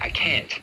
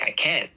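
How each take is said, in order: First: The final T is clearly released. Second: The final T is a glottal stop. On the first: "you don't normally say" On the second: "You say more like, ... That is a glottal stop"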